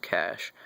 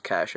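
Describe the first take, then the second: First: Cache as one syllable, like "cash"; correct pronunciation of cache. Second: Cache said as "cash-ay"; wrong pronunciation of cache. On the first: Correcting the word for viewers, cache as plain "cash". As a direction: say cache exactly like "cash", slower. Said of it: "it's pronounced cache". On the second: Showing viewers what not to say, cache as "cash-ay". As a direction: give cache a second syllable, "ay". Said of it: "it is not pronounced cache". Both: Shown as a demonstration.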